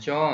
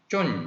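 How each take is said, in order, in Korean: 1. 모음을 길게 늘여서 발음해요. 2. 모음을 짧게 끊어서 발음해요. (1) "캄보디아 글자를 그대로 쓰여 있는 대로 발음을 하면 존" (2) "그 중간 소리이면서 동시에 단음인 쫀"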